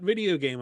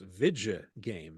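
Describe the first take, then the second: First: The first word has three syllables. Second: The first word has two syllables. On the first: The speaker calls it wrong. "we're not video game apocalypse" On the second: The speaker calls it right. "It's Vidja game. V I D J A"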